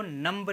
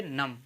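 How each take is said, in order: First: नम्ब with a sounded B; final B pronounced. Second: नम ending on M; silent B. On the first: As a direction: say नम्ब, releasing B after M. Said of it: "नम्ब नहीं बोलेंगे". (नम्ब के अंत में ब बोलकर) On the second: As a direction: say नम with no B at the end. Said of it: "इसको कहेंगे नम". (नम, अंत का ब मौन) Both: Shown as a demonstration.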